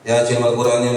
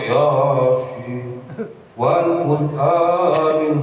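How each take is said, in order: First: The words are recited quickly. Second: The words are recited very slowly. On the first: The daily recitation gets finished in good time. The speaker calls it right. "Begitu baca cepat" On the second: The recitation drags on and is never finished. The speaker calls it wrong. "tiga jam kayaknya keburu"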